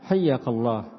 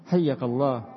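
No difference in how they are said.

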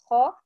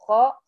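First: The kha is heavy, with a full-mouth resonance. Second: The kha is light, without a full-mouth resonance. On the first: "لما ضغطي بالخاء الى اعلى" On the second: "بدل ما هي خاء"

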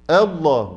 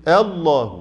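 The two takes are said the same way.

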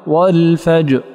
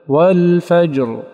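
First: The final r sound is dropped entirely. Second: The final r is voiced and held fully. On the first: The speaker calls it wrong. "أسقط الراء" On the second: The speaker calls it right. "والأكمل"

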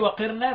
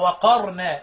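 First: The q is followed by an i vowel. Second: The q is followed by an a vowel. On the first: "والباقي وقرنا باقي القراء" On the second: "بيفتحها اذ نص تبقى وقرنا"

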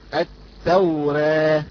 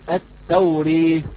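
First: The final vowel is between a and e. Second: The final vowel leans fully toward e. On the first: "أما إذا قرأناها بالتقليل" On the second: "بالإمالة نقول التوري"

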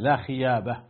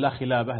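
First: The second word is said with a Y sound. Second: The second word is said with an L sound. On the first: The speaker calls it wrong. "وكان ألثغ اللسان" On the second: The speaker calls it right. "ما يقول لا خلابة"

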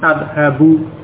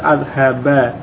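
First: The word ends with a short 'u' vowel. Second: The word ends with a short 'a' vowel. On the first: The verb is in its basic form without an. "Asalnya sebelum ada an dengan dhammah" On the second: The verb follows the particle an. "berubah menjadi fathah pada huruf akhir. Sehingga dibaca adhaba"

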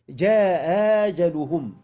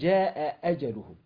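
First: The second hamza is softened toward a long vowel. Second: Both hamzas are pronounced fully. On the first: "بيسهلوا الهمزة، الهمزة الثانية من المفتوحتين بين الهمزة والألف، فتصير ... كأنها حرف مد" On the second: "يحققون الهمزتين معا"

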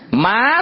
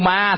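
First: The word is said with a high rising tone. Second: The word is said with a level tone. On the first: "Chỉ khác nhau có dấu sắc hả?" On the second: "Chỉ khác nhau có dấu sắc hả?"

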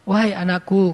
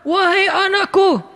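First: It is said in a calm, gentle tone. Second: It is said in a harsh, angry tone. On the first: The speaker is not angry. The speaker calls it right. "Nabi nyampein gini" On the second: The speaker seems to be angry. The speaker calls it wrong. "kesannya Nabi lagi marah-marah"

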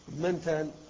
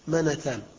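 First: The n sound carries no vowel. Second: The n sound is followed by a vowel. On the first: This is the form actually heard from the Arabs. "بسكون النون" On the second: This is the form expected by regular rule. "القياس منتان"

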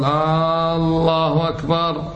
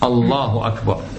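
First: The first vowel of Allah is drawn out. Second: The first vowel of Allah is short. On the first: It asks whether God is greater. The speaker calls it wrong. "هذا صار استفهام" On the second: It states that God is greater. The speaker calls it right. "هذا استفهام غير إيش؟"

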